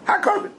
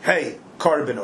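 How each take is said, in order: First: "Ha korban" run together as one word, much higher; one word, hakorban. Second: "Hey, korban" as two words, Hey then korban. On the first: Teacher shows students "Ha korban" said as one word. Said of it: "In one, one word". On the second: Teacher contrasts "Hey, korban" as two words for students. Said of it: "He didn't say". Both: Shown as a demonstration.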